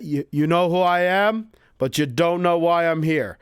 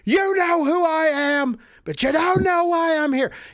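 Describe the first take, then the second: First: It is said in a calm, cool tone. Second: It is said in an angry, pushing tone.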